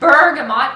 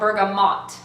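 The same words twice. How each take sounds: First: The stress is on the first syllable. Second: The stress is on the last syllable. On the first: "Emphasis on the bur" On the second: "or the mot"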